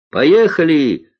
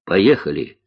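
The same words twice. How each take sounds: First: High, loud call to set off; shout. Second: Restrained echo of the cry; reply at an ordinary pitch, without shouting; answering call. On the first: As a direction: call it out to the next plane. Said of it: "крикнула Алиса". (звонкий крик лётчику) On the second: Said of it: "отозвался Гарик". (сдержанный ответный возглас) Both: A narrator's reading.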